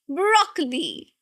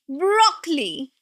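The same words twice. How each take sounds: First: The stress is on the first syllable. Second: The stress is on the first syllable.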